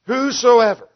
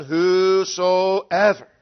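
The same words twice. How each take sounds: First: Whosoever hit high and loud; loud, high, ringing Whosoever; stressed word. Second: Whosoever drawn out very slowly; slow, weighty Whosoever; slow emphasis. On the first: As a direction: punch Whosoever out strongly. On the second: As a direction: stretch out Whosoever, syllable by syllable. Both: Shown as a demonstration. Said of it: "we want to emphasize that".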